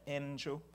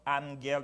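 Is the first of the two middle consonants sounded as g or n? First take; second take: n; g. First: The first middle consonant is sounded as n. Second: The first middle consonant is sounded as g. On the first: The speaker calls it right. "the first one is pronounced like an N. That's why you have N" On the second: The speaker calls it wrong. "Instead of angel"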